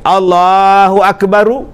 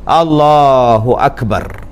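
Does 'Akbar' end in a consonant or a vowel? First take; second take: vowel; consonant. First: Akbar ends with an added u vowel. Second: Akbar ends on a bare r sound. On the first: The speaker calls it wrong. "ru tak mau" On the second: The speaker calls it right.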